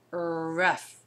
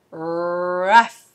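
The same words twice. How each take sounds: First: Quieter repeat of rough; soft repeat. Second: Rough said louder with a rise; blended rough. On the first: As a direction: say rough again gently. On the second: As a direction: blend it together with a push. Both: Shown as a demonstration. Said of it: "So it's er, uh, fa".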